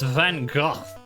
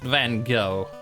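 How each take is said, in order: First: Gogh ends in a rough sound, like 'cough'. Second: Gogh ends in an open vowel, like 'go'. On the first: The speaker calls it right. "It's Van Gogh. Except it's like, cough" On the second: The speaker calls it wrong. "it's not pronounced Van Gogh"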